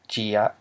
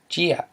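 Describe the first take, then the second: First: The word is said with a low tone. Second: The word is said with a falling tone. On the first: It is the word for bat. "Instead of gia for bat" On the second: It is a different word from bat. "did you get falling tone?"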